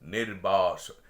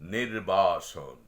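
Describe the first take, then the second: Both takes have the same delivery.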